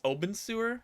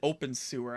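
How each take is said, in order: First: The name begins with a b sound, oben. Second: The name begins like the word open. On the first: The speaker calls it right. "I think it's Oben sewer" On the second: The speaker calls it wrong. "I don't think you pronounce it open sewer"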